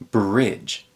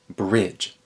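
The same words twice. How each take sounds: No difference in how they are said.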